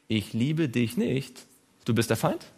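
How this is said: The pause comes right after the word nicht. The speaker does not love the listener. "wenn ich das Komma da hinsetze"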